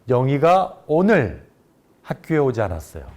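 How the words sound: The stress falls on the word 오늘. It was today, not another day, that she didn't come. "오늘을 강조해서 말한"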